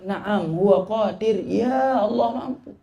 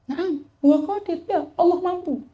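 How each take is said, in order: First: Slow, a touch of tearful catch; answering in tears. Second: High, gentle smiling reply; smiling answer. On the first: The sheikh answers the drunkard a third time, mildly tearful. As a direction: let a mild sob colour the slow reply. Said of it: "sambil nangis mengatakan". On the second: The sheikh smiles as he answers the drunkard again. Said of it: "Dijawab sambil senyum". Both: Acted.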